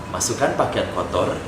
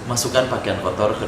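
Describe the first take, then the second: Both takes have the same delivery.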